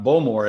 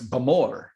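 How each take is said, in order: First: The stress is on the first syllable. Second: The stress is on the second syllable. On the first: The speaker calls it wrong. "It's not" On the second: The speaker calls it right. "generally the accents on the second syllable"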